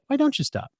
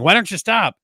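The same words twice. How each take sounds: First: It sounds sincere and genuinely curious. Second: It sounds frustrated and accusing. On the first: The speaker genuinely wants to understand the person. The speaker calls it right. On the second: The speaker is demanding that the person quit. The speaker calls it wrong.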